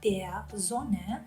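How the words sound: Sonne starts with a voiced z sound. "what I teach here is Hochdeutsch, so I'd say"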